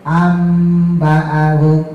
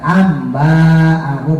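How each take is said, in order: First: The vowel after the b is short. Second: The vowel after the b is long. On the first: The speaker calls it right. "ba-nya itu pendek" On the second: The speaker calls it wrong. "bukan ba panjang"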